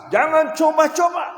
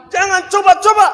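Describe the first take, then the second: First: High, loud warning; louder. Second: Full, high shouted warning; even louder shout. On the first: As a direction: raise it, firmly. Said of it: "Oke, agak keras". (ucapkan lebih keras) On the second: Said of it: "Agak keras lagi". (teriakan paling keras) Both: Shown as a demonstration.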